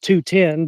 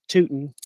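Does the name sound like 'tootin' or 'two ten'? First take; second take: two ten; tootin. First: It is said as two separate words, two ten. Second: It is said as one word rhyming with rootin'. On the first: The speaker calls it right. "it's actually pronounced two ten" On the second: The speaker calls it wrong. "they always pronounce it Tootin'"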